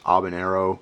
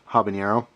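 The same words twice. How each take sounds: First: The word starts with a silent H. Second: The word starts with a clearly sounded H. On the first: The speaker calls it right. "the correct uh, pronunciation is habanero or something like that. I know the H isn't really pronounced" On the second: The speaker calls it wrong. "I always say uh"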